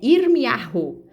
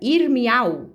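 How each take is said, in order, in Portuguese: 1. A consoante fraca do meio é pronunciada suavemente. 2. A consoante fraca do meio é totalmente omitida. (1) "eu falei para vocês pronuncia é Irmiarro" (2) "muitos pronunciam Irmial, né? Suprime essa vogal"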